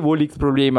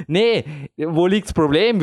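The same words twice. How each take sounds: First: Said in the usual way. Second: Lightly voiced coach, slow and unbothered; climbing coach. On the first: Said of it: "Und ich sag wirklich". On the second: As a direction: shrug it off slowly like a climbing coach. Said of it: "würde jetzt ein Klettertrainer sagen".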